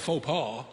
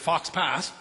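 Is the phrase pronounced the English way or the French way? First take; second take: French; English. First: It is pronounced with a French-style pronunciation. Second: It is pronounced with a flat English-style pronunciation.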